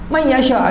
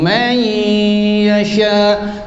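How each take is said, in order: First: The n is said plainly with no held nasal. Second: The n merges into y with a long nasal hum. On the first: The speaker calls it wrong. "tak ada langsung dua harakat" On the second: The speaker calls it right. "Di situ ada masuk dan dengung"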